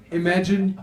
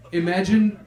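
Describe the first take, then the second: No difference in how they are said.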